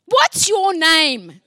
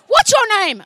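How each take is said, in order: First: Drawn-out, loud "What's your name?" from a gruff woman; woman calling out a demand, slow and loud. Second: "What's your name?" shouted high and loud; woman shoving her face close, shouting. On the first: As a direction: stretch "What's your name?" out slowly and loudly. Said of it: "She goes". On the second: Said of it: "She came right into my face". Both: Retold or imitated.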